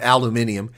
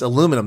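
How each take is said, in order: First: The word is said with five syllables. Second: The word is said with four syllables. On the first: The speaker calls it wrong. "Not aluminium" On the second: The speaker calls it right. "It's aluminum. That's right"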